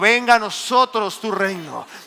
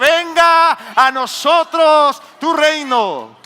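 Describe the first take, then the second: First: It is said at a normal, softer volume. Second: It is said loudest of all.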